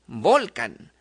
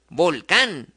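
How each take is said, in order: First: "volcán" stressed on VOL, not on cán; stress on first syllable. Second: "volcán" stressed on the final cán; light vol, strong cán in "volcán"; stress on last syllable. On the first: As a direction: say "volcán" with a strong vol and a weak can. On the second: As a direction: say "volcán" with the beat landing on cán. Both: Shown as a demonstration.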